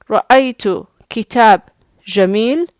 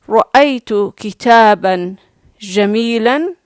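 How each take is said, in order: First: The last word ends on a bare consonant. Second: The last word ends with an n-sound. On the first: "it's not the best modern standard Arabic" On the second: "you did not mute the last letter when it has tanween"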